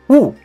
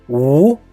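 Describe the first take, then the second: First: The pitch falls sharply from high to low. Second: The pitch rises from mid to high. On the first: "The last tone is U" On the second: "The second tone is U"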